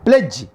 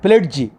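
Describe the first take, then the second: First: No distinct d sound is pronounced in the word. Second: A distinct d sound is pronounced in the word. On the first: The speaker calls it right. "Pledge is a correct pronunciation" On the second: The speaker calls it wrong. "Not pledge. Da should not be pronounced"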